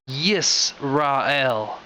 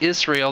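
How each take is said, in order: First: The name begins with a 'yis' sound. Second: The name begins with a plain 'is' sound. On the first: "it's Yis. There's a there's a yod there too" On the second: "We say Israel"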